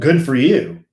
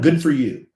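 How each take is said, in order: First: It is said with a sarcastic tone. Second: It is said plainly and sincerely.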